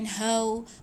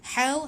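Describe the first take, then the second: First: The h is a soft, ordinary breathy sound. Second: The h is a sharp, thin throat sound. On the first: The speaker calls it wrong. "bukan hau" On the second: The speaker calls it right. "ha nipiskan. Ha pedas"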